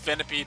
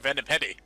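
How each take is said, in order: First: The name ends with a single 'peed' syllable. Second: The name ends with an extra 'dee' syllable. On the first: It is the proper name. The speaker calls it right. "I know it's Venipede" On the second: It is a joking nickname used long ago. The speaker calls it wrong. "Purposely, purposefully being mispronounced here"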